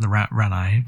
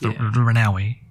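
First: The name is said without the middle 'au' part. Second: The name is said with the middle 'au' part. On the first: The speaker calls it wrong. "I wasn't pronouncing the AU bit" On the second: The speaker calls it right. "but yes"

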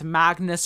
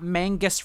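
First: The g sound comes before the n sound. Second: The n sound comes before the g sound. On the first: The speaker calls it right. "it's Magnus rhymes with Swagnus" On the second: The speaker calls it wrong. "it's not Mangus rhymes with Angus"

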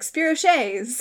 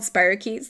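First: The word is sounded out as it is spelled. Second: The word has its usual standard pronunciation. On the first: "had only ever read them and never actually like heard the name pronounced before was like" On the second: "They're called spirochetes"

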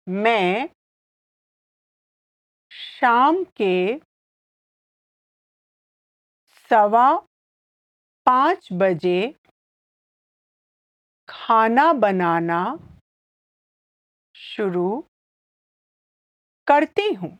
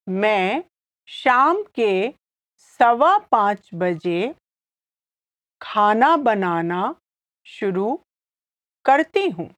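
First: It is said slowly. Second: It is said at normal speed.

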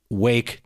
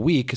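First: The vowel sounds like the one in 'day'. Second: The vowel sounds like the one in 'see'. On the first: This is the older pronunciation of the word. "moved from wake to week" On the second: This is the modern pronunciation of the word. "moved from wake to week"

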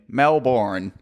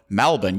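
First: It is said with an American pronunciation. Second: It is said the way Melbourne locals say it. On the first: The speaker calls it right. "the American Melbourne pronunciation" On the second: The speaker calls it wrong. "the odd Melbourne"

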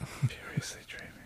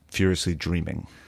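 First: It is said in a whisper. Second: It is said in a normal speaking voice.

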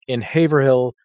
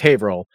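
First: The name is pronounced the way it is spelled. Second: The name is pronounced differently from its spelling. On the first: The speaker calls it wrong. "I pronounce it that way because I screwed it up just now. But that is how it's spelled" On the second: The speaker calls it right. "It's Haverhill"

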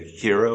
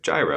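First: The word sounds much like 'hero'. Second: The word sounds like 'guy-ro', not like 'hero'. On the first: This is the proper way to say it. "I believe the proper pronunciation is like a hero" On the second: This is the casual everyday way to say it. "I'm going to say gyro"

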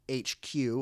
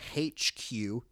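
First: It is said in the speaker's ordinary accent. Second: It is said in a put-on British accent.

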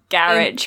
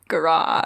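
First: The word is said in the British way. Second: The word is said in the French way. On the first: "we say garage because we're normal" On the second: "Like a French person"

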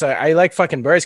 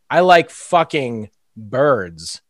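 First: The phrase is spoken quickly. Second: The phrase is spoken slowly. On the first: "if I say it fast" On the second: "But if I say it too slow"

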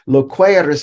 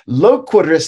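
First: The middle e vowel is long. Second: The middle e vowel is short. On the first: You will speak later. "because there is a long mark" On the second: You are speaking now. "because there's no long mark"

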